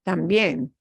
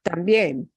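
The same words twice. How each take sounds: First: The stress is on the last syllable. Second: The stress is on the last syllable.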